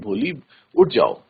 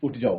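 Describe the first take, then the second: First: It sounds like a gentle suggestion. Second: It sounds like a stern order.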